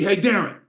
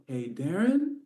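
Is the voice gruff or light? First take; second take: gruff; light. First: The voice is rough and gruff. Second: The voice is light and soft.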